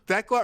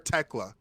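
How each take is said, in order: First: The name begins with a th sound. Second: The name begins with a plain t sound. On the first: The speaker calls it wrong. "Thekla or Tekla?" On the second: The speaker calls it right. "like tech and then la. H is silent"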